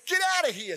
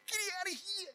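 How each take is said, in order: First: High, loud shout; loud commanding yell. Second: High, soft child's voice, mock shout; a four-year-old's tiny shout; little boy's yell. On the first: Shown as a demonstration. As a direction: yell it to scare the birds off. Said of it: "say with a loud voice". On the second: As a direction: imitate a small boy yelling, quiet and high. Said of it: "And he goes".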